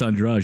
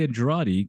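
First: The second d sounds like a j. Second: The second d is a plain d sound. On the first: The speaker calls it right. "But it's Andrade, you're right" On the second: The speaker calls it wrong. "I want to say Andrade because you know because it's Spanish"

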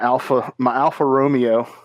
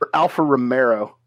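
First: The second word has no R sound inside. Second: The second word has an added R sound. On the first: The speaker calls it right. "My Alfa Romeo" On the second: The speaker calls it wrong. "There's no R"

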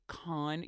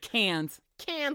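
First: The word sounds like 'con' with an ah vowel. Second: The word sounds like 'cans' with an a vowel. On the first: The speaker calls it wrong. "if you pronounce it con, you're an idiot" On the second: The speaker calls it right. "It's Cannes. Cans like these two"

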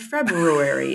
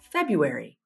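First: The first r sound is clearly pronounced. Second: The first r sound is dropped.

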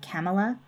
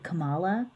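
First: The name is said to rhyme with Pamela. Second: The name is said not rhyming with Pamela. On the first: "I've heard Kamala, like Pamela" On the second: "But then I've also heard Kamala"

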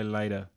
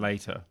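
First: The t sound in the middle is soft. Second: The t sound in the middle is crisp.

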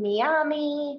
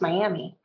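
First: It is pronounced the non-English way. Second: It is pronounced the English way. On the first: The speaker calls it wrong. "that's not how you pronounce Miami" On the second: The speaker calls it right. "It's pronounced Miami"

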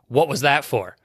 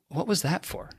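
First: It sounds angry and contemptuous. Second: It sounds loving and tender.

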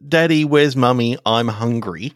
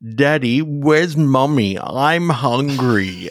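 First: It is said in a normal voice. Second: It is said in a creepy voice.

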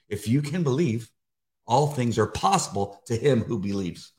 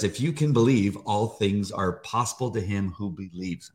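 First: There is a longer pause after 'believe'. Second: There is only a short pause after 'believe'.

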